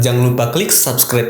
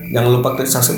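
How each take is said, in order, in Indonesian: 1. Setiap kata diucapkan dengan jelas dan tegas. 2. Katanya terdengar cadel dan tidak jelas. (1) "Ini adalah contoh artikulasi yang jelas" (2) "ini adalah contoh yang artikulasinya kurang jelas"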